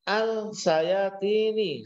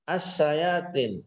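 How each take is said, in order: First: The article's L is clearly sounded before sh. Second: The article's L is silent, merged into sh. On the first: "aslinya begitu" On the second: "lamnya tidak berbunyi"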